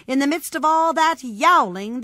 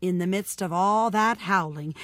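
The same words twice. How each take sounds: First: Higher, loud storytelling build; rising clamor. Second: Said in the usual way. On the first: A narrator's reading. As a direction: raise pitch and volume over the din. Second step rises over first.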